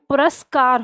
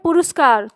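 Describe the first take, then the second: First: The second syllable has an 'a' vowel. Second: The second syllable has an 'u' vowel. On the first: The speaker calls it right. "संधि बताती है, पुरस्कार होता है" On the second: The speaker calls it wrong. "लोग बोलते हैं पुरस्कार, तो पुरु रा पे ऊ की मात्रा नहीं होती है"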